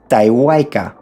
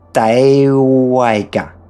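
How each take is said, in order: First: The word is said at normal speed. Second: The word is said more slowly. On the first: "we read taiwaika without a pause" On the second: "Again, but slower"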